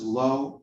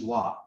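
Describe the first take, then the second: First: The word ends in an 'oh' vowel. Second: The word ends in an 'ah' vowel. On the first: This is the Hebrew form of the word. The speaker calls it wrong. "That's the Hebrew pronunciation" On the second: This is the Aramaic form of the word. The speaker calls it right. "The Aramaic pronunciation is la"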